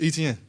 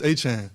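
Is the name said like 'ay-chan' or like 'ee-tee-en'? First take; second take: ee-tee-en; ay-chan. First: It sounds like 'ee-tee-en', following the spelling. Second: It sounds like 'ay-chan', two syllables. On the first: This version is easier for others to say. "how you see it is how you say it" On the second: This is the original family pronunciation. "Growing up, it's Travis Etienne, so it'd be like A C H A N E"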